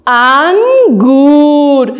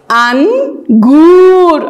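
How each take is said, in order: First: Drawn-out model word. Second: Very slow, stretched and a little louder; drawn-out model word. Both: Shown as a demonstration. Teacher sounding out a fruit name, slowly stretched. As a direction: stretch the first vowel. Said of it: "آواز چی آمد؟".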